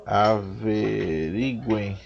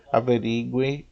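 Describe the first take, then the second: First: "averiguem" stretched syllable by syllable; very slow, careful "averiguem"; sounding out slowly. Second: Said in the usual way. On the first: Real, not acted. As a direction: draw out each syllable of "averiguem". Sounding out a listed verb form.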